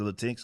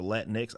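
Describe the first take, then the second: First: First "Latinx" said la-TINKS, as one word; Latinx as la-TEENKS. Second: Second "Latinx" said Latin plus the letter X. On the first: Host asking which is right, "Latinx" as la-TEENKS. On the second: Host asking which is right, "Latinx" as Latin-ex. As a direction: say "Latinx" as LAT-in-EX. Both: Shown as a demonstration. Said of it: "I don't fucking know".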